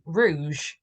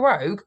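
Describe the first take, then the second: First: The name is said like the French word rouge. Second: The name is said like the word rogue. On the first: The speaker calls it right. "French for red" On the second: The speaker calls it wrong. "It's not Phil Rogue"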